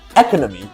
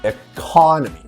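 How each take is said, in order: First: The stress is not on the second syllable. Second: The stress is on the second syllable. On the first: The speaker calls it wrong. "you wouldn't say economy" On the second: The speaker calls it right. "You're emphasizing the second vowel"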